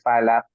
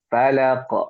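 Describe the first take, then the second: First: The final consonant is held without a bounce. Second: The final consonant is released with a bounce. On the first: The speaker calls it wrong. "tidak memantul" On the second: The speaker calls it right. "mantul seperti ini"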